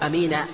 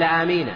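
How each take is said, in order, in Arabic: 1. الحركة الأولى تبقى قصيرة. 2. الحركة الأولى ممدودة وطويلة. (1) "وبالقصر" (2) "هذا بالمد"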